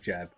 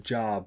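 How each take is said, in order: First: The vowel is short, like in 'jab'. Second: The vowel is long and open, like 'jaab'. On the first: The speaker calls it wrong. "not a jab" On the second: The speaker calls it right. "It's a jab"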